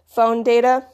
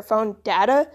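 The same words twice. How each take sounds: First: Data said "DAY-tuh"; phone data, with "data" as DAY-tuh; long-A data. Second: Data said "DAT-uh"; phone data, with "data" as DAT-uh; short-A data. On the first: Speaker gives an example, data with long A. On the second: Speaker gives an example, data with short A. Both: Shown as a demonstration. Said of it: "say data instead of data".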